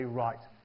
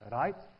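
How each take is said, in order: First: The R is soft, the tongue not touching. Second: The R is tapped with the tongue tip. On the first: The speaker calls it right. "you say right" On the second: The speaker calls it wrong. "you don't say right"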